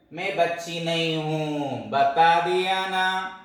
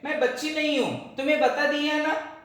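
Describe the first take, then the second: First: Put-on slow, stubborn little girl insisting; slow pouting protest; indignant child. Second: Put-on raised, higher child voice snapping back; higher-pitched child's retort; indignant little girl. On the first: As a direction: drag it out like a sulky kid who won't be called little. Child insists she isn't little. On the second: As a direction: play the girl pitching up to insist she's grown. Same protest, voiced higher.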